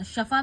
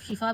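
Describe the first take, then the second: First: शफा said with a short a after sh, shaa-fa; shafa variant. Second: शिफा said with a short i after sh, shi-fa; shifa variant. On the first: Teacher showing students the variant शफा, with an open a. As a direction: say शफा with an open a in the first syllable. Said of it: "शफा भी बोलते हैं या". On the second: Teacher showing students the standard शिफा, with a clear i. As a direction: say शिफा with a clear i in the first syllable. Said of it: "शिफा भी बोलते हैं". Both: Shown as a demonstration.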